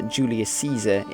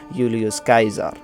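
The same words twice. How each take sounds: First: The C in Caesar is sounded like an S. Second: The C in Caesar is sounded like a K. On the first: This is the usual English pronunciation. "in English is how, how you would pronounce it" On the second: This is how classical Latin pronounced it. "in classical Latin it would be pronounced"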